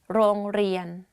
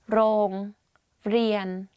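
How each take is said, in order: First: The word is said quickly and smoothly. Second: The word is said slowly and carefully. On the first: "and say it faster" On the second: "r sound"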